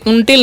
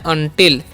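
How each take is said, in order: First: The first vowel sounds like 'oo'. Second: The first vowel sounds like 'uh'. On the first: The speaker calls it wrong. "उनटिल नहीं पड़ेगा" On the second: The speaker calls it right. "क्या पढ़ना है, अनटिल"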